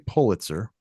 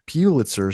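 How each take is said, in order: First: The first syllable sounds like 'pull'. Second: The first syllable sounds like 'pew'. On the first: The speaker calls it right. "I say Pulitzer" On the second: The speaker calls it wrong. "sounds like puke or pubic"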